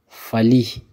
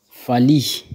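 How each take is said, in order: Both takes have the same delivery.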